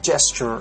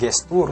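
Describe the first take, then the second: First: The starting j is released strongly with rounded lips. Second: The starting j is soft, Indonesian style. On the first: The speaker calls it right. "tapi gesture" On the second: The speaker calls it wrong. "bukan bukan gestur"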